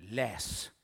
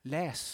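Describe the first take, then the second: First: Whispered command. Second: Said in the usual way. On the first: Acted. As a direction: breathe "läs." as a hushed order. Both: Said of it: "säger Gud".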